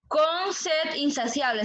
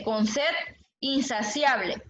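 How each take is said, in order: First: Slow verse repeat. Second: "con sed insaciable" read slowly, each word apart; slow verse reading. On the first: Teacher repeating the verse for students to count, slowly. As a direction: say "Con sed insaciable" slow, stressing "Con". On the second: Teacher reading a verse aloud to the class, slowly. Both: Shown as a demonstration. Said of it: "el verso dice".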